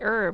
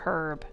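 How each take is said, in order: First: The word starts with no H sound. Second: The word starts with a clear H sound. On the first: "why do Americans say herbs without the H sound?" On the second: "Because there's an H there"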